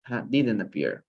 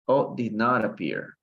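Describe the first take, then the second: First: Didn't said short and run together, "didən"; contracted didn't. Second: Did not spelled out word by word, a bit slow; full form did not. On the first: Teacher showing students the contracted didn't. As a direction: give the quick native contraction didn't. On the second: Teacher contrasting the full did not for students. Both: Shown as a demonstration.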